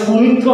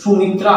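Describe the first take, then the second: First: সুমিত্র ending in a rounded o; সুমিত্র closed on an o vowel; wrong word ending. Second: সুমিত্রা ending in an open aa; সুমিত্রা opened out to a long aa; corrected word ending. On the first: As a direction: say সুমিত্র with final -tro, not -tra. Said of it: "সুমিত্র হবে না নিশ্চয়ই". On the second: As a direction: say সুমিত্রা with final -traa, not -tro. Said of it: "সুমিত্রা হবে". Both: Shown as a demonstration.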